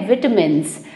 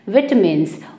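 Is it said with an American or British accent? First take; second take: British; British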